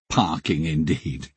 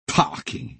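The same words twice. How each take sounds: First: Said in the usual way. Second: Scoffing, breathy dismissal; contemptuous. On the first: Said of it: "echo of Mick's contemptuous "Parking". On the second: Retold or imitated. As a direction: sneer the word parking away. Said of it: "he said contemptuously".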